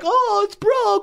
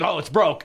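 First: It is said in an upset, dramatic way. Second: It is said calmly, matter of fact.

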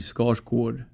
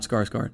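First: The second syllable has an 'o' vowel. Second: The second syllable has an 'a' vowel. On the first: The speaker calls it right. "So it would be O. So my last name in Swedish would be Skarsgård" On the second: The speaker calls it wrong. "and not Skarsgård"

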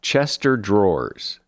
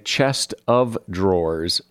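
First: The first part sounds like 'chester'. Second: The first part sounds like 'chest of'. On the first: The speaker calls it wrong. "here's one I hear a lot, Chester Drawers" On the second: The speaker calls it right. "it is correct to say Chest of Drawers"

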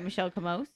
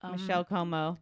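First: The surname ends with an audible S sound. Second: The surname ends without any S sound.

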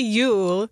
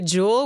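First: The word begins with a y sound. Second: The word begins with a j sound. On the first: "I can say Yule"

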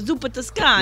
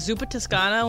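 First: It is said in a New York accent. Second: It is said in the speaker's normal voice.

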